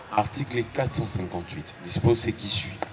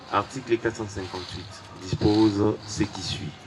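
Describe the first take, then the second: The two takes are said the same way.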